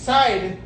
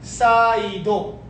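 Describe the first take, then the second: First: It is said as one English syllable. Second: It is said Japanese-style with an added final vowel. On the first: "Side is saido" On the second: "I'm speaking Japanese"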